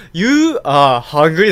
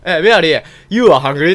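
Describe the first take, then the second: First: Very slow You are hungry, each word stretched, rising at the end; slow question tune. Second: Louder, ending hungry？ with a clear upward lift; rising English question. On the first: Shown as a demonstration. Demonstrating the noble's question form to S1, very slow rising tune. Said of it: "だから疑問形みたいな". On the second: Retold or imitated. Noble asks Mary you are hungry？ with a rising tone. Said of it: "って、せめて疑問形".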